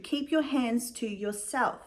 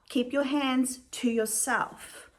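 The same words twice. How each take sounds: First: Said in the usual way. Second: Slow, spelled-out emphasis on each word; slow emphatic rule. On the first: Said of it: "start telling adults on YouTube". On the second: Shown as a demonstration. Vlogger lectures every viewer on the rule, slow and emphatic. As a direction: lay down the law, slowly. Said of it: "Man, woman, non-binary, whatever you are".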